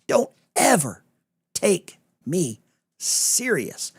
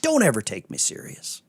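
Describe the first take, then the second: First: High and drawn out, stretching "take me serious"; slow, playful warning; teasing sarcasm. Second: Said in the usual way. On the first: Shown as a demonstration. Host teasing the chat, slow and high. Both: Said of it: "A lot of people miss the sarcasm".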